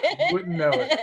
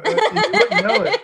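First: High voice, laughter easing off. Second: High, loud words broken by laughter; laughing tease. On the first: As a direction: let the laugh settle as you repeat it. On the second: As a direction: laugh hard as you tease him. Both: Real, not acted. Teasing friend about his accent.

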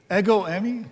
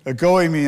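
First: "Ego eimi" stressed on the first syllable, E-go, rising at the end; wrong stress. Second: "ego eimi" with the weight on GO, e-GO ei-MI, falling; stress on second syllable. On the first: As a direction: say "Ego eimi" with the weight on the opening E. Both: Shown as a demonstration. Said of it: "the emphasis is on the second syllable".

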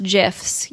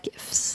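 First: "gifs" said like jifs; soft J sound opening "gifs"; soft-G pronunciation. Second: "gifts" said as gifs with a hard G; hard G on "gifts", as in give; hard-G pronunciation. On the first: Host showing listeners the rejected pronunciation, soft G. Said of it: "they're pronounced gifs, you are wrong". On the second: Podcast host settling how GIF is pronounced, hard G. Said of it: "if you think that they're pronounced gifs". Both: Shown as a demonstration.

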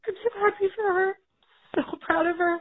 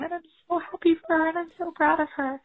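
First: Happy words pushed out through crying. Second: Said in the usual way. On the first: Real, not acted. Mom telling the podcast hosts she's proud, crying. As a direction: voice cracking with real tears. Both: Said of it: "I am having a breakdown".

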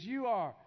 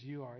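First: Said up and out, louder; the kid obeying and speaking up; mild imitation of a forced loud reply; louder answer. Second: Low, soft, grudging reply; a sulky kid barely getting it out; mild imitation of a sullen teen; mumbled reluctant answer.

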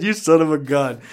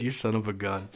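First: Loud, higher, fresh from laughing; real amusement, voice lifted and loud; amused. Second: Said in the usual way. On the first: Real, not acted. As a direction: exclaim it on the tail of a big laugh. Repeats it after bursting into laughter.

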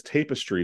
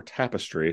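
First: "tapestry" said TAY-puh-stree, with a long A; first syllable of "tapestry" rhymes with "day"; mispronounced tapestry. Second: Said in the usual way. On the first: Real, not acted. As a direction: slip into TAY-pestry for "tapestry". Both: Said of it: "however you wanna say it".

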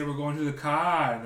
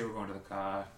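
First: High, loud, slow mock Kiwi accent. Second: Said in the usual way. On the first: Mimicking how New Zealanders say it, mock Kiwi accent. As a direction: drag out the vowels like a hammed-up New Zealander. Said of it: "They say". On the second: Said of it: "No, we say".

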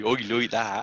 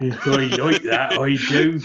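First: Broad West Country oi, like that; playful rural West Country twang; West Country accent. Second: Bad Somerset accent, a bit louder; hammy West Country oi, like that. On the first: Pretend. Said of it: "We went back to my roots". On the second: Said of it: "mine was the worst Somerset accent ever".

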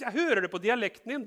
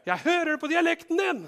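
First: "Jeg hører det på dialekten din" said high and raised, pressing; insisting. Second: "Jeg hører det på dialekten din" cried out very high and loud; shrieking accusation. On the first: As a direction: press the point, louder. Accuser insists Peter is Galilean. (høy, pågående stemme) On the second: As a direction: shout it so everyone hears. Accuser repeats, higher. (skingrende høyt rop) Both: Acted.

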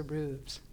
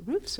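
First: Voiced v-z ending on "roofs"; "roofs" ending in a buzzing VZ. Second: Voiceless FS closing "roofs"; "roofs" ending on a hissed fs, no v. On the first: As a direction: say "roofs" as "rooves". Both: Shown as a demonstration. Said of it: "Is it roofs or roofs?".

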